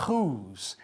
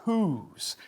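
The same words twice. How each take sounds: First: "whose" with a scraped throaty J for the H; wrong "whose", throat friction on the first sound; harsh Spanish jota. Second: "whose" with a light breathy H; soft English H. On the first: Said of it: "No decimos". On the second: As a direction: start "whose" on soft air, no throat friction. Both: Shown as a demonstration.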